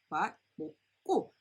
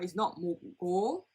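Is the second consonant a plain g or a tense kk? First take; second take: tense kk; plain g. First: The second syllable starts with a tense kk sound. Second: The second syllable starts with a plain g sound. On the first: The speaker calls it right. "the G and a G becomes a double G" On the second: The speaker calls it wrong.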